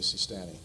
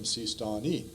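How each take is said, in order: First: The name has an anglicized, English-style pronunciation. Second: The name has its native, original-language pronunciation. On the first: It is easier for a general audience to understand. "so I have to say Sistani" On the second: It follows the specialist's original-language form. "we tend to pronounce the words as they are pronounced in the original languages"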